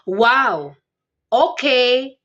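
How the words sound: It sounds angry.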